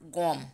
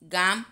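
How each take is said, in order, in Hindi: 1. स्वर एक गोल 'o' ध्वनि है। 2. स्वर एक खुला 'aa' ध्वनि है।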